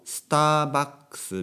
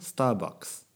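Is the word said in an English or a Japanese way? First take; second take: Japanese; English. First: It is said the Japanese way, with added vowels. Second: It is said the English way, without added vowels. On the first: "日本語っぽく言うと" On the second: "スじゃないですよね、スターね"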